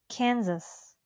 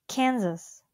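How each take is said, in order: The two takes are said the same way.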